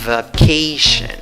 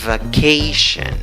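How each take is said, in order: First: The first syllable has a weak 'uh' vowel. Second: The first syllable has a weak 'uh' vowel.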